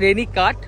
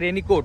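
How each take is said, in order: First: The last syllable has an 'a' vowel. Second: The last syllable has an 'o' vowel. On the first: This is the official name. "Actually সেটার নাম হচ্ছে" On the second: This is how locals say it colloquially. "এখানে চলিত ভাষায় বলা হয়"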